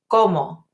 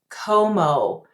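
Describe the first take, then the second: First: The o vowels are short with still lips. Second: The o vowels glide with moving lips. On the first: The speaker calls it right. "I don't want to do that for Spanish. The word is" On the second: The speaker calls it wrong. "Too many students say it like this"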